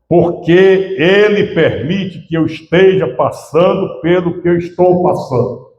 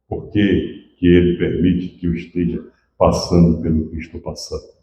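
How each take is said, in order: First: It is said slowly, with more emphasis. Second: It is said at a normal pace.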